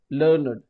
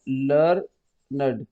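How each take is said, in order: First: Said in the usual way. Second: "learned" drawn out slowly as two beats, लर-नड; syllable by syllable. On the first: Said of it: "syllable है इसमें". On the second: Shown as a demonstration. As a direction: stretch "learned" slowly so both syllables show. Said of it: "दो syllable है इसमें". ("Learned" को धीरे-धीरे दो हिस्सों में, लर-नड)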